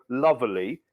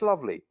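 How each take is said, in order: First: "lovely" as "luvverly", with an added R; mock the extra syllable in "lovely", luv-er-lee; exaggerated three-syllable "lovely"; American mock-British "lovely". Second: "lovely" in two syllables, luv-lee; "lovely" as luv-lee, middle uncluttered; correct British "lovely". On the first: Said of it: "They go". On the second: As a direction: say "lovely" simply, with no R in it. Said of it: "There's no R in there". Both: Shown as a demonstration.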